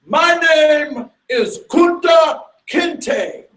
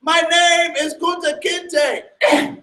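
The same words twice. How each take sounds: First: Slow, high, loud proud answer; proud declaration. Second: Slow, high, steady defiance; defiant answer. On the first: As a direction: stand tall and declare your name. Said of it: "And he says proudly". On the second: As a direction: hold on to your name. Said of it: "And he says". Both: Retold or imitated.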